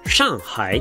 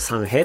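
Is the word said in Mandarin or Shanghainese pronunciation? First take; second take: Mandarin; Shanghainese. First: It is said with standard Mandarin pronunciation. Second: It is said with Shanghainese dialect pronunciation. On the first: "上海っていうのが正式な発音" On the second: "上海語になると三平っていうんですね"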